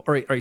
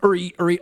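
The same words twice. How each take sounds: First: It is said with milder, less exaggerated energy. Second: It is said in a frantic, highly exaggerated way. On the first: This is how the comedian does it now. "but it's not as pronounced" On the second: This is how the comedian did it early on. "It was like real manic"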